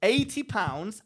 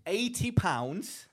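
First: Louder, punched repeat. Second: Drawn out slowly for effect; slow reveal. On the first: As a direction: hammer the price home. Repeats price after interruption. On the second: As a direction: let each word land slowly. Reveals price to friend. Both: Real, not acted.

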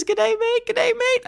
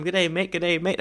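First: High, lightly hammed Australian greeting; chirpy Australian accent, much higher; mock Australian voice. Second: Said in the usual way. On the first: Shown as a demonstration. Host reading a review, mock Australian accent. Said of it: "Brendan Lee S from Canada says". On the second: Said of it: "read this in your salad fingers voice".

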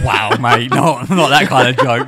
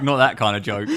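First: Loud laughing scold, "not that kind of joke"; mock telling-off. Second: Laughing. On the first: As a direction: call him out loudly, half joking. Mock telling-off after Gaza joke. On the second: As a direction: giggle it out, the scold dropped. Repeat after mock telling-off. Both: Real, not acted.

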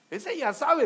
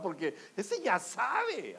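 First: Higher and louder ese ya sabe, rising at sabe; emphatic. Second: Slow, drawn-out ese ya sabe. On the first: Preacher repeating loudly to the congregation, emphatic. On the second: Preacher slowly telling the congregation the older man knows. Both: Shown as a demonstration.

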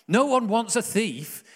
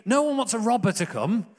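First: "No one wants a thief" high and loud, drawn out, falling on "one"; slow down and lean on "one"; slow emphatic repeat. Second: "No one" thrown out high and loud, rising; emphatic "No one". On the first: Preacher driving the point home to his church, slow and loud. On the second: Preacher insisting to his church, loud "No one" rising. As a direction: hammer home "No one" at a lifted pitch. Preacher stressing uncomfortable Jesus picture. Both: Real, not acted.

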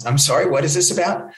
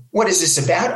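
First: Polite, puzzled question; imitated baffled reporter. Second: Higher-pitched, incredulous echo of the question; mock indignant scream. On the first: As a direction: ask it as a mildly confused reporter. Bewildered reporter answers angry caller. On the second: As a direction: throw it back in acted outrage. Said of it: "I started to scream at the guy".

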